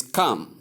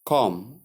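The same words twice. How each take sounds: First: "come" with the vowel of cup; correct pronunciation. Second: "come" with an open O, like com; mispronunciation demo. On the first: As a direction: model "come" short, as kum. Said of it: "the vowel is". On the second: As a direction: say "come" wrongly as kom. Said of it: "Common error". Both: Shown as a demonstration.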